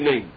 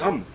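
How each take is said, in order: First: The first vowel is dropped or cut short. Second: The end of the word is swallowed. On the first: "you don't have the commas under the aleph. You just say name" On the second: "You shouldn't like swallow it up and don't say the end of it"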